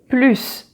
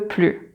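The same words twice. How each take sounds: First: The final S sound is pronounced. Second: The final S sound is silent. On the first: The speaker wants more. "You see, you pronounce the final S" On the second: The speaker does not want any more. "And there, the final S is silent"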